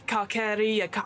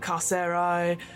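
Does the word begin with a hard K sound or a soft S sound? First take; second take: hard K; soft S. First: The word begins with a hard K sound. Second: The word begins with a soft S sound. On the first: It sounds like the start of incarceration. The speaker calls it right. "No, Carceri, hard C" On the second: This is how other videos say it. The speaker calls it wrong. "What else have they said?"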